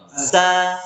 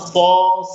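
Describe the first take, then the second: First: The s is thin, tongue base kept low. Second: The s is thick, tongue base raised. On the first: The speaker calls it right. "tapi turunkan pangkal lidahnya" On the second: The speaker calls it wrong. "jangan so"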